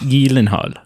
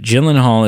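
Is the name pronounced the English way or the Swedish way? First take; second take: Swedish; English. First: The name has a Swedish-style pronunciation. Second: The name has a plain English pronunciation. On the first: The speaker calls it right. "the like, Nordic, Swedish kind of" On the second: The speaker calls it wrong. "is actually the incorrect pronunciation"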